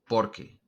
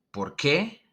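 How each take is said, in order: First: Por qué with por stressed, flat end. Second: Por qué with qué stressed and rising. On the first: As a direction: answer form, por carries the stress. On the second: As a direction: push qué, end going up. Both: Shown as a demonstration. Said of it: "So notice the difference".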